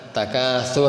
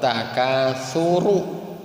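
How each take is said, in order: First: The word ends on a bare 'r' sound. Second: The word ends with a sounded 'ru' syllable. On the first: The reader stopped on the word. The speaker calls it wrong. "Barusan takasur hatta" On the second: The word is joined to the next word without stopping. The speaker calls it right. "Dibaca ru-nya"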